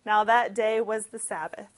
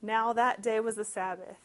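First: Louder ominous reread of Sabbath; much louder dramatic retelling. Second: Said in the usual way. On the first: Shown as a demonstration. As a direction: boom it out as foreshadowing. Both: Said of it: "there's your foreshadowing".

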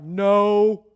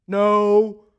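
First: Loud, curt, annoyed no; grumpy no. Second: Loud, curt, irritated no; pissed off no. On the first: Tired fishermen answer the stranger on shore, a loud annoyed no. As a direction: bark it like tired men fed up. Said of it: "You know they said it like that". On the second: Fishermen answer the stranger again, a loud irritated no. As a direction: snap it out, tired and hungry. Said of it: "Kind of pissed off a little bit". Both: Acted.

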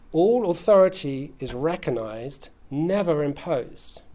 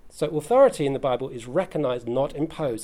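First: "recognized" and "never imposed" drawn out slowly, each word weighted; slow emphatic statement. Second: Said in the usual way. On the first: Shown as a demonstration. Preacher stating his second principle, slow and weighted. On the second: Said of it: "restates the principle".

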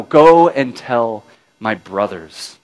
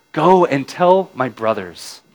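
First: Slow, each word weighted, go stressed; slow emphatic. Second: Said in the usual way. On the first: A narrator's reading. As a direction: lay out go and tell my brothers deliberately. Repeated slowly with weight.

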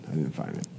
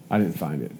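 First: "I didn't find it" dropped low and much softer, almost to himself; muttered under breath. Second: Said in the usual way. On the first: Real, not acted. Rider admitting to viewers he missed the consulate, soft mutter. Repeating failed search for consulate.

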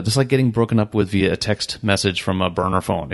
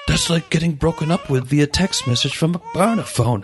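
First: Said in the usual way. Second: A hammed-up, higher British accent; awful British accent. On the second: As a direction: do a bad British impression, pitched up. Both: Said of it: "that's my awful British accent".

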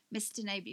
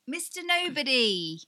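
First: Said in the usual way. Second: Louder, higher burst as the title comes back; excited recall. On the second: Real, not acted. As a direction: blurt out "Mister Nobody" with relief. Finally remembers the film title.

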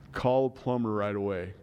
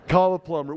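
First: Said in the usual way. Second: Louder, self-mocking dad advice; dad laughing at his own useless advice; mock self-quote. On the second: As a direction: toss it off, poking fun at himself. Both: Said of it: "what great dad advice".

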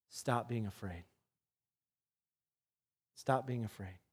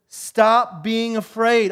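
First: Soft, low, gentle command; calm them with a hushed order; softer hushed words to frightened men; quiet command. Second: Louder, slow and emphatic; a preacher's slow, ringing command; firm command. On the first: Jesus commanding fearful disciples. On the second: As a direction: order the fear away, word by word. Preacher repeats Jesus' command. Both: Acted.

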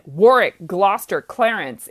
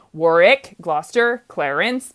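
First: "Warwick", "Gloucester", "Clarence" each hit on the first syllable and falling; three falling trochees in a row, each name landing hard up front; stress on first syllables. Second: "Warwick", "Gloucester", "Clarence" each said with a light rising lilt, no hard first-syllable hit; normal rhythm. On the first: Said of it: "three trochees in a, in a row". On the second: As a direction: run the three names smoothly, each tipping upward at the end. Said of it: "if it was Shakespeare's normal rhythm". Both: Shown as a demonstration.

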